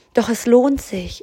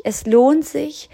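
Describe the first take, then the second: First: Said in the usual way. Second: Higher and slow, leaning on "lohnt"; slow emphatic repeat. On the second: Real, not acted. Coach urging a listener that it's worth it, slow and emphatic. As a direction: drag out "Es lohnt sich" to drive it home.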